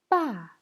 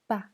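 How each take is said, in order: First: The pitch falls sharply from high. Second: The pitch is short, light and unstressed. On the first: "Quatrième ton" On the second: "Et le ton neutre"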